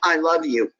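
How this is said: It is said coldly and with hostility. The speaker does not sincerely mean the affection. "hostility in your body language and saying"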